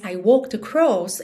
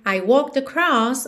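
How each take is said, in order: First: The vowel is more closed and dark. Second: The vowel is more open and bright. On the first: "É um pouco mais vertical, esse som um pouco mais fechado, um pouco mais escuro" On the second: "ao invés de ser"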